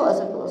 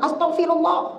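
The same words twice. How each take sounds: First: It is said drowsily, like half asleep. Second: It is said in an annoyed tone.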